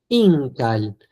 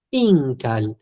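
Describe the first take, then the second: No difference in how they are said.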